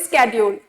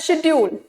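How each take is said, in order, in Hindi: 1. यह शब्द 'sk' ध्वनि से शुरू होता है। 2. यह शब्द 'sh' ध्वनि से शुरू होता है। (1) "अब हम लोग बोलते हैं" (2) "पहले होता था"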